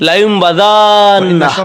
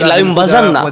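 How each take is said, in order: First: The vowel before the last syllable is long. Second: The vowel before the last syllable is short.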